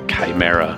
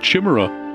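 First: The word begins with a K sound. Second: The word begins with a CH sound. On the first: The speaker calls it right. "why wouldn't you use the K sound for the K?" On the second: The speaker calls it wrong. "I've been pronouncing it wrong for 37 years"

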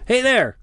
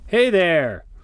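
First: It is said as an urgent, alarmed warning. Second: It is said as a friendly, casual greeting. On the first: The speaker is warning someone of danger. "the "I need your attention to warn you of something kind of dangerous" "hey there."" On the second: The speaker is simply greeting someone. "the cordial greeting type of "hey there" that you throw out to a rando you want to greet"

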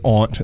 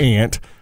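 First: The vowel is broad, as in 'father'. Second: The vowel is short, as in 'cat'. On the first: The speaker calls it right. "I said aunt, ... because I speak the King's English" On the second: The speaker calls it wrong. "not aunt"

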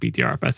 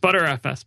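First: The name is spelled out letter by letter. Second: The name is said as the word butter. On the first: The speaker calls it wrong. "it's not BTRFS" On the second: The speaker calls it right. "It's ButterFS"

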